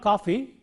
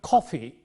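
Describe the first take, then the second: First: The first k sound has no puff of air. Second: The first k sound has a puff of air. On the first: The speaker calls it wrong. "It is not coffee" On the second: The speaker calls it right. "but coffee"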